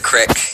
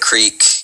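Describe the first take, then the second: First: The word is said the local Montana way. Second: The word is said the standard general way. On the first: "They're going to go down to the creek" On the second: "instead of the creek"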